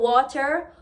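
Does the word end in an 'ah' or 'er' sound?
er. The word ends with an 'er' sound. "change the E R ending words"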